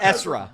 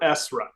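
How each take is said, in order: First: The middle consonant is a voiced z sound. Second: The middle consonant is a clear s sound. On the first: The speaker calls it wrong. "not Ezra" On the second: The speaker calls it right. "we really pronounce the S. We're Esra"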